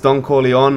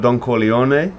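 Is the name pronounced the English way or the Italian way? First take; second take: English; Italian. First: The name is said with English pronunciation. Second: The name is said with Italian pronunciation.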